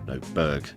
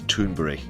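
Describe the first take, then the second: First: The name is said in the English way. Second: The name is said in a non-English way. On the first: This is the usual English reading of the spelling. "the English pronunciation of that spelling" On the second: This is how the interviewer says the name. "it's Thunberg, she says"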